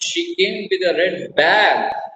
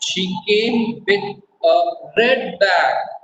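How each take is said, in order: First: The stress falls on the word bag. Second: The stress falls on the word red. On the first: It was a bag, not another object. "not umbrella, not rose, bag" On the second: The bag was red, not another colour. "not green, not yellow, not blue"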